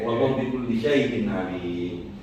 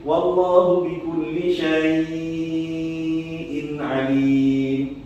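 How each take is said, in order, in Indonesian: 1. Vokal pada 'syai' dibaca pendek. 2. Vokal pada 'syai' dibaca panjang. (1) "Kalau kita biasanya kan bacanya pendek"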